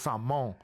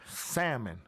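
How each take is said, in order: First: The word has a Caribbean pronunciation. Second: The word has an East Coast pronunciation. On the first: "we in the Caribbean, we got to hit it with a salmon" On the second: "if you're on the east coast"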